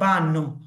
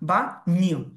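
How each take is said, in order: First: The middle consonant is a plain n sound. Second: The middle consonant is a nasal ny sound. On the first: The speaker calls it wrong. "অনেকে এটাকে বলে বা নো" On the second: The speaker calls it right. "এটাকে নিয়র মতো উচ্চারণ করতে হবে, একটু নাকে বাড়ি দিয়ে"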